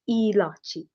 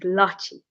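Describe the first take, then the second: First: The word starts with an 'i' vowel sound. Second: The word starts directly with an 'l' sound. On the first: This is how some people in India say it. "Jangli people in India pronounce it ilachi, not lachi" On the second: This is the Punjabi way of saying it. "how they say it is lachi"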